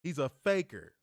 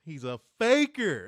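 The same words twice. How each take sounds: First: Said in the usual way. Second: Louder mocking call-out; loud accusing. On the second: Shown as a demonstration. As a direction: call him out loudly.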